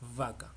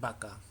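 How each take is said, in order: First: The first sound is made with lip and teeth. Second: The first sound is made with both lips. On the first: The speaker calls it right. "pero debería ser vaca" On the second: The speaker calls it wrong. "pues lo decimos así, ¿no? Sin más"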